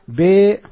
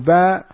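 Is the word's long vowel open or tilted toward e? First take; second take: tilted; open. First: The long vowel leans toward an e sound. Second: The long vowel is an open a sound.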